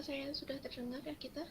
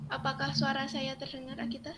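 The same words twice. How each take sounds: First: Faint, still not carrying over the call; asking too softly to be heard; barely audible. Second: Speaking up so the call hears; a firmer, fuller repeat of the question; louder. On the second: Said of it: "Ya, sudah bisa". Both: Real, not acted.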